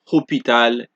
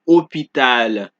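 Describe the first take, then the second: First: The initial H is pronounced aloud. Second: The initial H is silent. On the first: The speaker calls it wrong. "we don't say histoire, hôpital" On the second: The speaker calls it right. "it is homme, histoire, hôpital"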